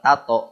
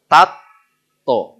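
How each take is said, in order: First: The middle t is single and short. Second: The middle t is doubled and held long. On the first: The speaker calls it wrong. "bukan tato, tato mah eta ya" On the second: The speaker calls it right. "Kencengin tuh. Tatto, bukan tato"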